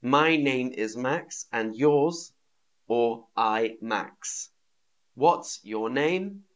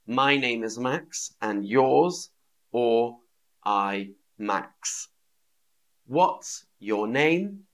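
No difference in how they are said.

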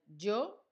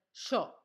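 First: "yo" said with a plain y, as in Spain; yo with a y sound. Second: "yo" said as sho, with an Argentine sh; Argentine sh sound. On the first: Teacher contrasts the Spanish "yo" with Argentina's. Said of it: "o no dirían yo". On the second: Teacher shows students the Argentine "yo" pronounced sho. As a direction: turn the y of "yo" into sh, Argentine style. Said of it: "dirían yo". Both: Shown as a demonstration.

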